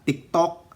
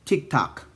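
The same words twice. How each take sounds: First: It is said with a Filipino accent. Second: It is said with an American accent. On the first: "matigas ang dila" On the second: "sa American accent"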